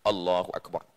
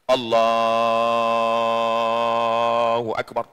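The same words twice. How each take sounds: First: The phrase is said at normal, short length. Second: The phrase is drawn out long and slow.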